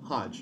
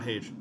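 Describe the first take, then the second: First: It sounds like the start of hodgepodge. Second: It sounds like the English city name Hague. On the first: The speaker calls it right. "Hodge, not Hage" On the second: The speaker calls it wrong. "not Hage"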